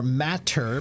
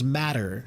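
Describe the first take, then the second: First: The middle sound is a hard, clear T. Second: The middle sound is a soft, quick D.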